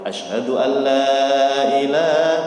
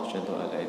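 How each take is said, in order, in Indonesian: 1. Frasa itu diucapkan keras, dengan suara penuh. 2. Frasa itu diucapkan pelan, hampir di bawah napas. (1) "Baru asyhadu alla ilaha, begitu" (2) "dalam hati pelan itu baca"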